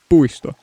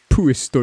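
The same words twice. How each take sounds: First: The p is soft, close to a b. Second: The p is pushed out with a puff of air. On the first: The speaker calls it right. "you say puisto" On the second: The speaker calls it wrong. "you don't say puisto"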